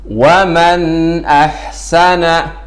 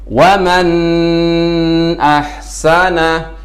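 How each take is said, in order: First: The n sound is short and clearly pronounced. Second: The n sound is held too long. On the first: The speaker calls it right. "nun dibaca dengan jelas" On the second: The speaker calls it wrong. "membaca nun terlalu lama ... ini termasuk bacaan yang salah"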